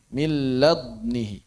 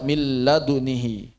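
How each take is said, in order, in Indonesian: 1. Bunyi d ditutup tanpa lepasan yang bergema. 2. Bunyi d dilepas dengan pantulan gema yang pendek.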